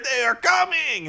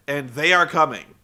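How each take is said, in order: First: Hammed-up wrestling villain promo; Crimson promo. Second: Said in the usual way. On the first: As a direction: declare it like a goofy vampire. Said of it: "He's like". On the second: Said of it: "echoing the promo".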